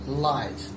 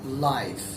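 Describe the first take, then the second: First: The word ends cleanly on the final consonant. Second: The same.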